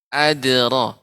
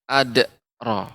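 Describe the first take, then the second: First: The d is released with a light bounce. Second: The d is followed by a glottal catch. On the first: The speaker calls it right. "Akan tetapi adra" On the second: The speaker calls it wrong. "Tidak boleh adra"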